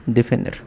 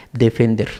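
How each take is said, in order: Both takes have the same delivery.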